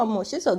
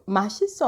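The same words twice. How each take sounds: First: 멋있어 with the rounder "eo" vowel in the first syllable; contrasted pronunciation. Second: 맛있어 with an open "a" in the first syllable; quick 맛있어, opening on "ma"; contrasted pronunciation. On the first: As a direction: say 멋있어 opening on "meo". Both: Retold or imitated. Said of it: "they're not the same".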